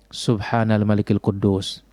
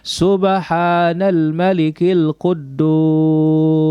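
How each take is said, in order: First: It is said in a soft, quiet voice. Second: It is said loud, with drawn-out words.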